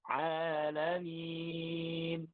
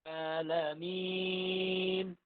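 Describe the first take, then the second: First: The pitch is not raised on the ending. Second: The pitch is raised on the ending. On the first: "Beda ya. Di minnya itu sudah beda" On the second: "Kalau yang pertama tadi dinaikkan"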